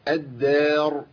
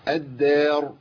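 No difference in how they are said.

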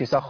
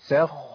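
First: The خ sound is short and single. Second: The خ sound is doubled and held. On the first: The speaker calls it wrong. "ما أقولش سخ ما ينفعش" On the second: The speaker calls it right. "لازم أبين الحرفين"

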